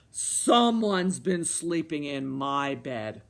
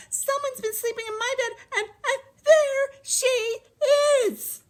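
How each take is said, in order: First: Low, loud, slow bear; roaring Papa Bear. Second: Very high squealing cub; squeaking baby bear. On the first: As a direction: roar it slowly, down low. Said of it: "roared Papa Bear". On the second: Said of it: "Baby Bear peeked at her little bed and squeaked". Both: A narrator's reading.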